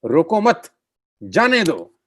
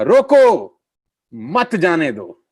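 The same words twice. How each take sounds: First: "रोको मत" as one unit, pause, then raised "जाने दो"; pause after मत. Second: "रोको" high and loud, pause, then slow "मत जाने दो"; pause after रोको. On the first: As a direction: break after मत, not after रोको. ("रोको मत" एक साथ, रुककर "जाने दो") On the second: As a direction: shout "रोको", break, group मत with "जाने दो". ("रोको" ज़ोर से, रुककर धीरे "मत जाने दो") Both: Shown as a demonstration. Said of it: "बात के मायना ही बदल गया".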